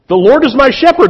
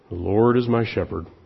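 First: It is read brightly and joyfully. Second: It is read slowly and mournfully.

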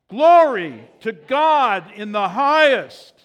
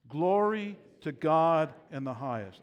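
First: It is shouted loudly with high energy. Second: It is said at a normal speaking volume. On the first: The speaker calls it right. "Shout it out" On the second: The speaker calls it wrong. "Let's all say that together"

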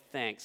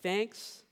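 First: It sounds curt and rude. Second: It sounds friendly and kind.

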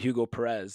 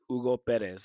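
First: The name is said with an English-style pronunciation. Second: The name is said with a Spanish-style pronunciation. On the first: This is how other people mistakenly say his name. The speaker calls it wrong. "And people would call him Hugo Perez" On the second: This is how he insists his name is said. The speaker calls it right. "no, it's Hugo Perez. And he was very adamant"

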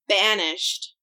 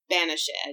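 First: The word is said with two syllables. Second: The word is said with three syllables. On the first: The speaker calls it wrong. "banished should have been" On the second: The speaker calls it right. "should have been banished"

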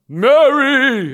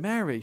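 First: It is said in a booming, theatrical angel voice. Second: It is said in an ordinary human voice.

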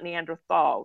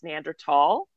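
First: The middle sound is a soft 'th'. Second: The middle sound is a plain 't'. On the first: The speaker calls it wrong. "Y'all know it's not Neanderthal" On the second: The speaker calls it right. "It's Neanderthal"

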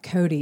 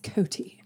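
First: The middle consonant sounds like a soft d. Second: The middle consonant is a clear t sound. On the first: The speaker calls it wrong. "it's not Coty" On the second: The speaker calls it right. "With a T"

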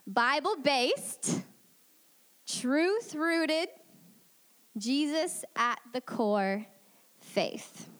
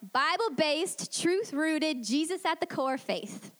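First: It is said slowly. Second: It is said at a quicker pace.

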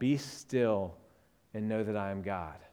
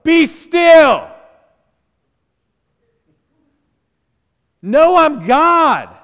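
First: It is said gently and restfully. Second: It is said firmly and forcefully.

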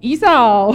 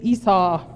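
First: It is said in a southern drawl. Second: It is said in a plain accent.

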